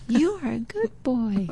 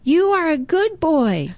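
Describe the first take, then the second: First: The compliment returns softer; faint echo. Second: Put-on high, cheerful boy calling a compliment; friendly call. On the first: Retold or imitated. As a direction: echo it back from far away. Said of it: "He heard an echo". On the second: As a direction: call out kindly into the woods. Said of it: "and he says".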